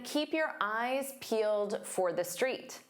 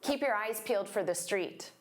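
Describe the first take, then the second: First: The sentence is spoken slowly with clear words. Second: The sentence is spoken quickly with reduced words.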